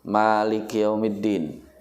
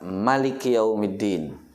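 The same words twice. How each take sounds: First: The first vowel of Maliki is held long. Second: The first vowel of Maliki is kept short. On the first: "maknya panjang"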